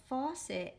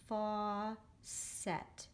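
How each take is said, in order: First: Said in the usual way. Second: FAUCET split slowly into fau, cet; a long "fau", a pause, then "cet" in "faucet"; read by syllable. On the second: Shown as a demonstration. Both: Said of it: "gonna read it by the syllable".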